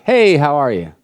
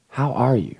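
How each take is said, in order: First: Breezy, throwaway mock greeting; insincere greeting. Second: Soft, caring check-in; sincere question. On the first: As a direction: toss it off like you don't want an answer. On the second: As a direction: ask gently, really wanting the answer. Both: Shown as a demonstration. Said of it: "Not the insincere".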